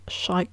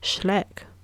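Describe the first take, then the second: First: The name ends with an 'ike' sound. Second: The name ends with a short 'eck' sound. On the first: The speaker calls it right. "I didn't know how to pronounce Shrike correctly" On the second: The speaker calls it wrong. "it was like Schleck"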